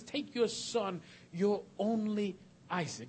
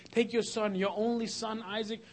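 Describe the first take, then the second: First: Only Isaac said with no son between; preacher reading the original wording, stressing Isaac; your only Isaac. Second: Said in the usual way. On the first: Shown as a demonstration. The name Isaac put right after only. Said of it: "it simply says". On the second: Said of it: "someone will say".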